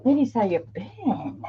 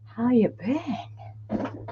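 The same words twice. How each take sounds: First: Said in the usual way. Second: Slow unvoiced whisper; softly whispered repeat of the greeting. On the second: Real, not acted. Greets chat, then repeats it whispered.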